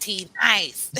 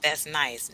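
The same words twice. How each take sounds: First: "nice" in a lightly put-on mocking voice. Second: Said in the usual way. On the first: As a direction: poke fun at the word "nice". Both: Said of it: "I'm mocking on that one".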